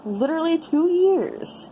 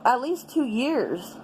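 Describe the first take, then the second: First: "two years" pitched up with weight; exasperated emphasis on "two years"; stressed repeat. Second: Said in the usual way. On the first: Real, not acted. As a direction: lean hard on "two years" the second time.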